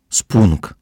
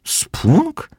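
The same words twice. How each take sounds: First: Loud, proud announcement; a punchy, triumphant reveal. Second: Very high, rising question; baffled, soaring pitch; puzzled echo. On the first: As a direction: announce the new word in triumph. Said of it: "powiedziała Fizia triumfująco". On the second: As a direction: squeak the word back as a question. Puzzled friend repeats the new word. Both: A narrator's reading.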